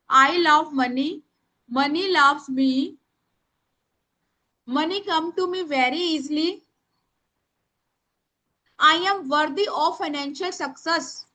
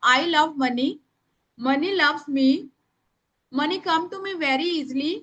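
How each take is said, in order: First: Very slow, word by word dictation; slow dictation to the class; speaking slowly. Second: A little slower, for writing down; slow dictation; speaking slowly. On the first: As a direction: stretch every word so they can write. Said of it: "मैं धीरे बोल रही हूँ". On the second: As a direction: give them time to write. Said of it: "मैं धीरे धीरे बोल रही हूँ". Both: Shown as a demonstration.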